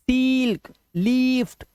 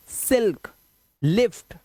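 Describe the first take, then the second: First: सील्क, लीफ्ट with high, stretched ee; wrong long vowel. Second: सिल्क, लिफ्ट with brief vowels; short vowel. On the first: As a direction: hold each ee long and high. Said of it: "ये गलत हो जाएगा". (सील्क, लीफ्ट में ई को ऊँचा खींचकर) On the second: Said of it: "इसको जल्दी बोलना है". (सिल्क, लिफ्ट में छोटी इ) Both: Shown as a demonstration.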